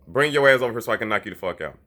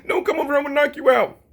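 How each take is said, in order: First: Said in the usual way. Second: High whiny mock threat; mocking scared voice. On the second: Mocking how a scared boxer talks, high and whiny. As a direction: whine it like a scared fighter. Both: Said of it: "You see the difference?".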